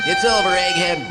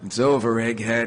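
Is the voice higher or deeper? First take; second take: higher; deeper. First: It is said in a higher voice. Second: It is said in a deeper voice.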